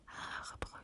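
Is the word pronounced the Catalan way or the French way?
French. It is pronounced with French sounds.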